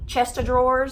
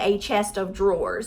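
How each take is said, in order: First: It is said fast, running the words together. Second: It is said slowly, each word kept separate. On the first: "because you say it so fast" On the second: "but it's really a chest of drawers"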